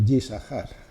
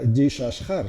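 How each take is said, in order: First: The middle consonant is an 's' sound. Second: The middle consonant is an 'sh' sound. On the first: The speaker calls it right. "por alguna razón se pronuncia así" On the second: The speaker calls it wrong. "esto no se pronuncia Yishashar"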